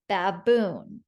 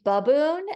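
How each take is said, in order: First: "Baboon" with a clear short A in the first syllable. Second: "baboon" with the A reduced to a lazy uh; schwa first syllable. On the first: Teacher naming the picture for spellers, clear short A in "Baboon". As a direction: say "Baboon" as bab-BOON, the A fully sounded. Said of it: "You could also say baboon". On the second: Teacher showing another way to say it, schwa in "baboon". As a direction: say "baboon" as buh-BOON. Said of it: "the A is making a schwa sound". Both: Shown as a demonstration.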